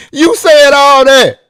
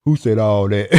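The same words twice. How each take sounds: First: Much higher and louder, slowly hammering the words; loud slow retort. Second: Low, put-on voice playing innocent; mock denial, low and offhand; imitating his friend. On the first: Real, not acted. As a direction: nail him with his own words. Retort to the friend's denial. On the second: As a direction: play dumb like the friend would. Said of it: "This is what he say".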